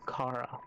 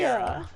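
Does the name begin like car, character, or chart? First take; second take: car; chart. First: The first syllable sounds like the word car. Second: The name begins with a ch sound, as in chart. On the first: "I always say Kara. Like, car, vroom, vroom" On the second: "those who say Chara"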